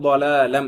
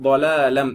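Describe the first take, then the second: Both takes have the same delivery.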